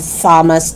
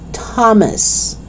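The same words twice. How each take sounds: First: The word begins with a th sound. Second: The word begins with a plain t sound. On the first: The speaker calls it wrong. "So it's not" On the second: The speaker calls it right. "you only pronounce it with T"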